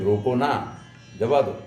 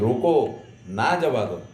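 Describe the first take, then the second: First: The pause comes after 'na'. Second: The pause comes after 'roko'.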